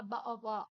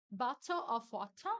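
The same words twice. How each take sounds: First: Bottle of water clipped to bo- and wa- at the T; dropped British T. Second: Bottle of water with every T hit hard, bato of wota; sharp British T in bottle of water; crisp British T. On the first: Teacher contrasting British extremes, glottal stop. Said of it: "ou fala bo-, of wa". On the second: Teacher contrasting British extremes, crisp T. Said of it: "não vai falar com som de R". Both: Shown as a demonstration.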